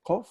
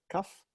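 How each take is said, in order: First: "Kof" with a rounded "o" as in "core"; pronounced Kof. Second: "Kaf" with an open "a" as in "cuff"; pronounced Kaf. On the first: Teacher gives one name of the letter as "Kof". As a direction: say "Kof", rhyming with "cough". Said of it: "Some people call it Kof". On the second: Teacher gives the other name of the letter as "Kaf". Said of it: "some people call it Kaf". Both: Shown as a demonstration.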